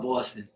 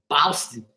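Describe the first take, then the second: First: Said in the usual way. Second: Boston said the Boston way, broad first vowel; Boston accent. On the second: Shown as a demonstration. Mimicking how Bostonians say the city, Boston accent. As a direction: show Boston in a local Boston accent. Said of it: "That's how they talk".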